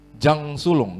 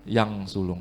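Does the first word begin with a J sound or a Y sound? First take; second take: J sound; Y sound. First: The first word begins with a J sound. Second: The first word begins with a Y sound. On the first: The speaker calls it wrong. "gitu bacanya, bukan ya?" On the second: The speaker calls it right. "J dibaca Y"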